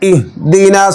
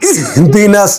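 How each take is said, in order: First: The h is pronounced softly and normally. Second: The h is pushed out very hard from the belly. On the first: The speaker calls it right. "হাকে নর্মাল উচ্চারণ করতে হবে।" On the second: The speaker calls it wrong. "পেটের থেকে উচ্চারণ করে ইহদিনাস ইহদিনাস, এরকম উচ্চারণ ভুল"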